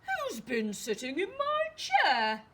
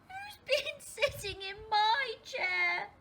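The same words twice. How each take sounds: First: It is said in a very loud voice. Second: It is said in a tiny little voice. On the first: "he asked in a very loud voice" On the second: "he said in a tiny little voice"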